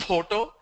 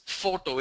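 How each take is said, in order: First: "photo" said as poto; puffed p opening "photo"; wrong pronunciation demo. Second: "photo" with a clear f; correct pronunciation demo. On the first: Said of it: "It's not photo". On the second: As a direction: say "photo" as FOH-to. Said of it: "It's a f sound". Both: Shown as a demonstration.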